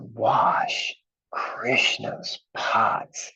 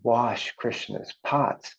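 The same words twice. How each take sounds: First: It is said with strong enthusiasm and energy. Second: It is said plainly, without extra energy.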